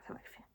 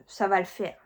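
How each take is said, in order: First: "ça va le faire" said barely voiced, very soft; muttered to herself. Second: Said in the usual way. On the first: Real, not acted. Reassuring herself about catching up, soft mutter. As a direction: repeat it under your breath.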